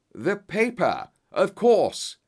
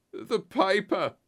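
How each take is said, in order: First: High, loud burst of realisation; excited yell. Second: High, slow croak; croaked cry. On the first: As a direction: yell it as a sudden discovery. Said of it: "yelled Holmes". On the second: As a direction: croak it out slowly in a high, strained voice. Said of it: "croaked a voice behind us". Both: A narrator's reading.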